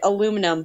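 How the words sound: It is said the American way. The speaker calls it wrong. "Americans say it aluminum"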